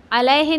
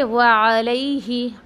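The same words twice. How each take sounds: First: अलैहि said flat as plain alehe; the mistaken अलैहि; wrong reading. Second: व अलैहि drawn out slowly with a long lean ai; slow model reading of व अलैहि; correct tajweed. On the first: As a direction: say अलैहि with a short e, no glide. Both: Shown as a demonstration. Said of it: "अलैहि नहीं पढ़ने का".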